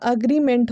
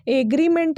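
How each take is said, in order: First: एग्रीमेंट with an "uh" start; correct pronunciation. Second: एग्रीमेंट with an "ay" start; wrong pronunciation. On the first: Teacher giving the corrected form, correct pronunciation. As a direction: say एग्रीमेंट as uh-GREE-ment. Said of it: "अ में जो एक ही मात्रा नहीं लगेगा". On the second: Teacher saying what it won't be, wrong pronunciation. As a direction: say एग्रीमेंट as AY-gree-ment. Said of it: "नहीं होगा". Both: Shown as a demonstration.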